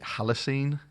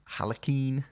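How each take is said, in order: First: The ending sounds like the end of plasticine. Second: The ending does not sound like plasticine.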